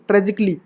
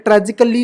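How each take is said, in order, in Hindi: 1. अंत से पहले वाला स्वर मौन रहता है। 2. अंत से पहले वाला स्वर उच्चारित होता है। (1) "ये ए साइलेंट रहता है" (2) "ट्रेजिकली नहीं"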